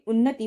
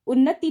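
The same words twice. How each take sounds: First: उन्नति with short final i; correct pronunciation. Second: उन्नति with long final ee; wrong pronunciation. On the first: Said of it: "उन्नति होता है". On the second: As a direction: say उन्नति as un-na-tee. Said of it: "उन्नति ना होके". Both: Shown as a demonstration.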